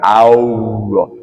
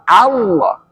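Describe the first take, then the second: First: The word has an added w sound. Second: The word has no added w sound. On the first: The speaker calls it wrong. "Jangan Allah. Kok ada wawunya?" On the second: The speaker calls it right. "Alif lam"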